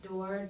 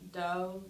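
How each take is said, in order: First: The word ends with an R sound. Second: The word ends without any R sound.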